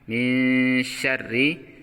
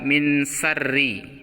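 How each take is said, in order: First: The word begins with an sh sound. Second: The word begins with a plain s sound. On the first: The speaker calls it right. "huruf shin ini letaknya adalah di tengah-tengah lidah" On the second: The speaker calls it wrong. "Ada yang baca min sarri. Itu keliru"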